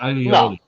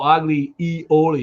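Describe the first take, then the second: First: The two words roll smoothly together as one. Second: The two words are split apart, not rolled together. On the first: The speaker calls it right. "it's gotta roll" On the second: The speaker calls it wrong. "You can't go agli ioli"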